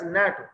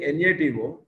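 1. इसे एक ही शब्द की तरह बोला जाता है। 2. हर अक्षर अलग-अलग बोला जाता है। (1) "we pronounce that as NATO" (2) "we are not saying NATO"

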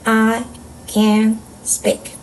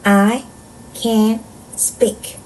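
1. 각 단어 뒤에 잠깐 쉬어요. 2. 각 단어 뒤에 잠깐 쉬어요.

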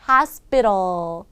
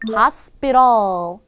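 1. s 뒤의 p는 경음이고, 무기음입니다. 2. s 뒤의 p는 경음이고, 무기음입니다.

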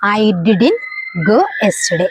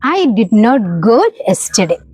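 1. Negative ഒരു ചെറിയ വാക്കായി ചുരുങ്ങിയാണ് പറയുന്നത്. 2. നെഗറ്റീവ് രണ്ട് വാക്കുകളായി പൂർണ്ണമായാണ് പറയുന്നത്.

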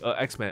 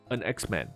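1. 两个元音相遇，中间没有连接音。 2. n 音把 an 和 X 连起来。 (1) "a X-Man 就不是很好发，因为a 两个都是母音连在一起" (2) "你N 呢贴完天花板才好发母音嘛"

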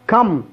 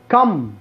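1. الصوت هنا 'a' قصير ومفتوح. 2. الصوت هنا 'a' قصير ومفتوح.

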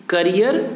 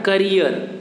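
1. पहला स्वर एक छोटी 'uh' ध्वनि है। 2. पहला स्वर एक छोटी 'uh' ध्वनि है।

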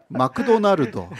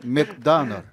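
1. 일본어 억양으로 발음했어요. 모음이 더 들어가요. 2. 영어 원어민 같은 억양으로 발음했어요. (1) "마크도나르도 아시잖아요" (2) "근데 이곳은 맥다널 이렇게 해야죠"

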